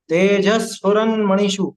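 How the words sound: The half s joins straight onto tej. The speaker calls it right. "ज के बाद ही आप ले लो ना उसे"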